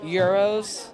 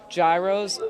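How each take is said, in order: First: The word begins with a Y sound. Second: The word begins with a G sound. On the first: This is the original way to say it. The speaker calls it right. "you're actually supposed to pronounce them euros with the G silent" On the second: This is how Americans say it. The speaker calls it wrong. "Americans pronounce gyros as gyros with the G"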